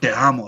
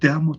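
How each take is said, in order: First: It sounds angry. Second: It sounds shy.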